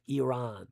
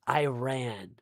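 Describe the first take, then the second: First: The word is said in a native way. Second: The word is said in an anglicized way. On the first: The speaker calls it right. "That's the proper way of pronouncing it" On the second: The speaker calls it wrong. "it's pronounced not Iran"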